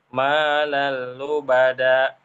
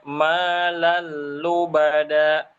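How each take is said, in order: First: The phrase is said flat, without added force. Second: The phrase is said raised, with forceful energy. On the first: The speaker calls it wrong. "Kalau dia datar" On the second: The speaker calls it right. "Harusnya malal lubada. Ada tenaga"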